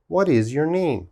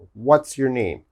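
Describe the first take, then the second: First: What and is are said as separate words. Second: What and is are joined into what's. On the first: It sounds childish. The speaker calls it wrong. "This sounds childish" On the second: It sounds more natural and adult. The speaker calls it right. "It's faster"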